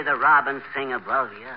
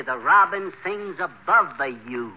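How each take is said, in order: First: Said in the usual way. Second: "sings" and "the you" spelled out slowly; slow, over-distinct "the robin sings above the you"; coaching the singer, every syllable deliberately pronounced; careful enunciation. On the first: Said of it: "Don't say". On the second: Shown as a demonstration.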